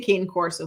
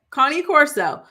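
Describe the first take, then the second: First: The name is said with an English pronunciation. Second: The name is said with an Italian pronunciation. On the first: The speaker calls it wrong. "I say cane corso" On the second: The speaker calls it right. "There's another pronunciation in the chat"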